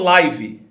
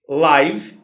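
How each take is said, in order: First: It ends with an extra vowel sound. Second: It ends on the final consonant sound. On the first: The speaker calls it wrong. "e não" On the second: The speaker calls it right. "A palavra termina na consoante"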